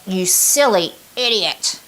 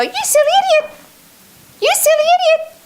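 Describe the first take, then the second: First: Slow, intense, self-scolding; harsh self-criticism. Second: Very high, squeaky, daft cartoon voice; mock your inner critic in a ridiculous squeal; silly squeaky voice. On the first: Coach demonstrating her inner critic, slow intense scolding. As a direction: bite down on each word like a stern critic. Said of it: "I would say it with that level of intensity". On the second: Sales coach mocking her inner critic, very high silly squeak. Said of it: "Just do something stupid to just desensitize it". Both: Shown as a demonstration.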